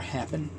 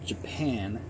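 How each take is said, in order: First: The word begins with an H sound. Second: The word begins with a J sound.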